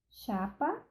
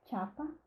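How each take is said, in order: First: The word begins with a plain sh sound. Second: The word begins with a tch sound.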